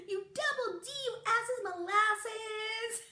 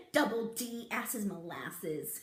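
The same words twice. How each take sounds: First: High, slow sung taunt; sung, sing-song taunt. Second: Said in the usual way. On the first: Shown as a demonstration. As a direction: chant it like a playground tease. Sing-song insult demo.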